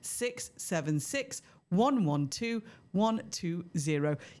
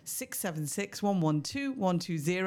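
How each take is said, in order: First: The number is said at a slow pace. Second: The number is said at a fast pace.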